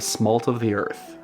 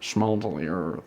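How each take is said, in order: First: The first word begins with a plain s sound. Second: The first word begins with a sh sound.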